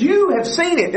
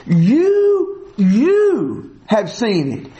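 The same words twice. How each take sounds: First: Said in the usual way. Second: You, You lingered on and pushed up; stress on You. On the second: Shown as a demonstration. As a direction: hit You hard, repeat it, then slow down. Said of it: "Both of the yous in verse fourteen are emphatic".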